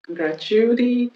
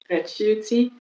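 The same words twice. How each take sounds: First: It is said in an American accent. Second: It is said in a British accent. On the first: "ça c'est prononciation U S américaine" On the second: "ça c'est prononciation british"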